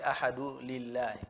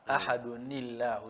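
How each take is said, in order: First: No 'n' sound; ahadu runs straight into lillahi. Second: An added 'ni' links ahadu to llahu. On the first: The speaker calls it wrong. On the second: The speaker calls it right. "n'oteekako kakasira ... n'ogatta wali"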